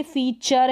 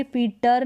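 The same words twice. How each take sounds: First: फीचर as "fee-char"; T read as CH. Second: फीटर with a hard T, "fee-tar"; wrong T pronunciation. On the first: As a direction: say फीचर with a clear "ch". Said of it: "फीटर नहीं पढ़ते". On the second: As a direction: misread feature as फीटर. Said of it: "टी को ट क्यों नहीं". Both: Shown as a demonstration.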